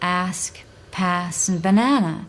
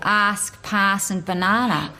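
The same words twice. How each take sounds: First: It is said in an American accent. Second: It is said in a broad Australian accent. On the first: "An American would say" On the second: "You might get something quite broad"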